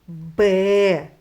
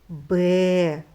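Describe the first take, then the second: The two takes are said the same way.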